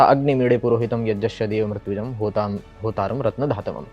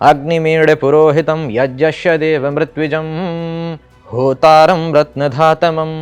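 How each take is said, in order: First: It is recited plainly without pitch accents. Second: It is recited with rising and falling pitch accents. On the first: It is recited as an ordinary verse. "सीधा सीधा उच्चारण करता" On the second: It is recited as a Vedic mantra. "मेरा सस्वर पाठ"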